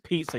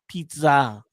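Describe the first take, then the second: First: The word is said in a plain, normal way. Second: The word is said with an exaggerated foreign accent. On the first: This is how the other person said it. "Say someone says pizza" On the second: The speaker is faking a foreign accent. "You don't go pizza"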